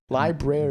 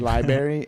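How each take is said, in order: First: The ending is said as brary, with an r. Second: The ending sounds like the word berry. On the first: The speaker calls it right. "it's not a berry. It's library" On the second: The speaker calls it wrong. "The other word I would say wrong is library"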